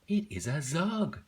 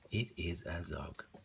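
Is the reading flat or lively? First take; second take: lively; flat. First: It is read with lively, excited energy. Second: It is read in a flat, plain way. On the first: The sentence ends with an exclamation mark. "But I saw the exclamation mark" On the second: The sentence has no exclamation mark. "If that wasn't there, I would have just read it like"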